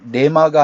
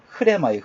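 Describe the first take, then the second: First: It begins directly with the r sound. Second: It begins with an h sound before r. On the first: The speaker calls it wrong. "레마가 아니라" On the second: The speaker calls it right. "원래 정확한 발음은"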